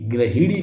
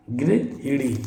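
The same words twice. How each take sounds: First: गृहिणी begun "gra"; a-vowel opening in गृहिणी; wrong pronunciation shown. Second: गृहिणी slowly as "gri-hinee"; slow, softer "gri" opening on गृहिणी; correct pronunciation shown. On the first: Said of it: "गृहिणी कुछ नहीं होता". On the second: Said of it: "गृहिणी होगा". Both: Shown as a demonstration.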